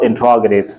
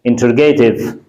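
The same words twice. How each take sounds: First: "interrogative" as in-TROG-uh-tiv; correct pronunciation. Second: "interrogative" as in-ter-GAY-tiv; wrong pronunciation. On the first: Teacher giving the dictionary form, "interrogative" as in-TROG-uh-tiv. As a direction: stress the ROG in "interrogative", with a short "ga". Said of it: "It's called interrogative". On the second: Teacher warning students off this form, "interrogative" as in-ter-GAY-tiv. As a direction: say "interrogative" with a long stressed GAY. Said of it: "please do not pronounce it". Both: Shown as a demonstration.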